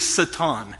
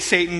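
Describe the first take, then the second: First: It is pronounced the Hebrew way. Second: It is pronounced the American way. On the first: The speaker calls it right. "in the Hebrew, the word is actually Satan" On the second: The speaker calls it wrong. "We say it Satan because we're Americans"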